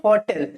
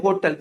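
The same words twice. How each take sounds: First: होटल said HAW-tl, open first vowel; correct pronunciation. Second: होटल said HOE-tl, round "o"; common mispronunciation. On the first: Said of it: "इसे क्या बोलते हैं?". (होटल को "हॉटल" बोलें) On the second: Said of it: "कुछ लोग क्या बोलते हैं?". (होटल को "ओ" की मात्रा से "होटल" बोलें) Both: Shown as a demonstration.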